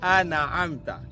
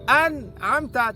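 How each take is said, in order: First: The n is followed by a vowel. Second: The n is said with no vowel after it. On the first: The speaker calls it wrong. "tetapi dibariskan" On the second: The speaker calls it right. "Huruf nun sepatutnya mati"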